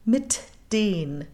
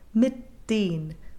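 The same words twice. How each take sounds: First: The T is released with an audible burst. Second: The T is stopped without an audible release. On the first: The speaker calls it wrong. "It's also possible to explode it" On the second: The speaker calls it right. "We call this implosion, ... We're basically just stopping the sound"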